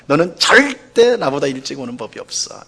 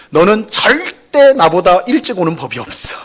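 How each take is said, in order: First: 절대 said plainly, falling at the end; mild reproach. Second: 절대 punched high and loud; accusing stress on 절대. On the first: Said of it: "이렇게 이제 말을 하잖아요". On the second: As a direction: blame hard on 절대. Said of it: "혹은". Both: Shown as a demonstration.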